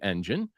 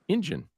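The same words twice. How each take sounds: First: The first vowel is a plain 'eh' sound. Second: The first vowel sounds close to 'ih'. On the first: "we didn't say engine" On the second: "it almost sounds like it starts with an I"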